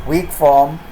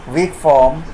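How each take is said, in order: No difference in how they are said.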